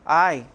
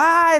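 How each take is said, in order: First: It is said flatly, without emotion. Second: It is cried out loudly, in pain.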